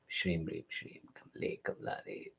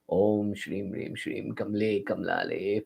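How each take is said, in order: First: It is breathed almost silently with little sound. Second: It is muttered softly at low volume. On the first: "mutter it silently in your mouth ... but sound is less" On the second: "if you mutter it mildly"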